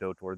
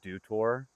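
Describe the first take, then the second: First: The first word rhymes with 'go'. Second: The first word rhymes with 'do'. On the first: The speaker calls it wrong. "I've literally been calling it Doe Tour" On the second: The speaker calls it right. "you call it Dew Tour"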